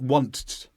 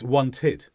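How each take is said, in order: First: The -ed ending adds no extra syllable. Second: The -ed ending adds an extra vowel syllable. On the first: The speaker calls it wrong. "it's not want" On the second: The speaker calls it right. "then we do need that vowel sound"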